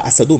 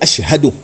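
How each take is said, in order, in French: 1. Un s simple, sans h après. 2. Un son sh suivi d'un h net. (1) "On ne dit pas Assadou" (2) "mais on dit Ashhadou"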